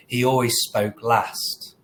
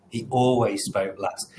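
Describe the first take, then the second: First: "he always spoke last" slower and louder, leaning on "always"; emphatic. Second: Said in the usual way. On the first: Real, not acted. Recalling the managing director's habit, leaning on "always". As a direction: drive home "always".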